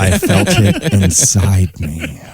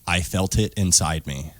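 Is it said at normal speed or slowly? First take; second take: slowly; normal. First: It is said slowly and drawn out. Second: It is said at a normal pace.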